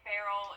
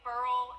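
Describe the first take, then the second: First: It is said with two syllables, like 'barrel'. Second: It is said as one short syllable, 'burl'. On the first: "it's not quite barrel" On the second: "it's not quite burl"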